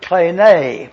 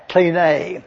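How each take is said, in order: First: "klene" said as KLEE-nay; "klene" pronounced KLEE-nay, slowly; Greek word pronounced. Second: "klene" said as KLEE-nay; "klene" pronounced KLEE-nay, the model word. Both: Shown as a demonstration. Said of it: "which is pronounced K L E E N A Y".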